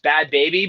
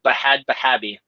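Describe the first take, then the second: First: The name is said in three syllables. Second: Each H is voiced, giving five syllables. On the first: "I know her name is" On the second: "there's an H I think in both of them, so I pronounce it"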